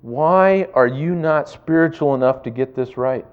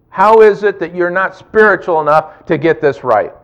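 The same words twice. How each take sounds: First: Said in the usual way. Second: Louder, pressing "is" hard in accusation; accusing stress on is. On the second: Pretend. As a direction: hammer the word "is" as a rebuke. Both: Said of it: "the temptation of discouragement".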